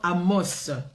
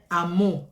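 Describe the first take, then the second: First: The final s is clearly sounded. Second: The final s is silent. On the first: This is how we say it. "Nous nous disons Amos. Voilà, parce qu'il y a un S, on le prononce" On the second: This is how others say it. "ils disent Amos"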